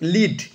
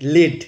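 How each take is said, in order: First: The vowel is a long 'ee' sound. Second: The vowel is a short 'eh' sound. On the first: It means to guide or be in charge. "লিড মানে হচ্ছে আহ, পরিচালনা করা" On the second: It means a kind of metal. "এল ই এ ডির অন্য একটা উচ্চারণ আছে"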